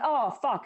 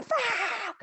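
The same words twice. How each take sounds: First: Said in the usual way. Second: High, drawn-out imitated fuck; mild mock scream. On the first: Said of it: "it's not like". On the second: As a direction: stretch the fuck into a yelp. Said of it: "proper scream".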